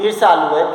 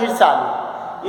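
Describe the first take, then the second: First: Said in the usual way. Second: ईर्षालु said slowly, syllable by syllable; teacher slowly sounding out ईर्षालु; slow spelled-out word. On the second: Shown as a demonstration. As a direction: draw out ईर्षालु for the class. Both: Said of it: "क्या लिखा है".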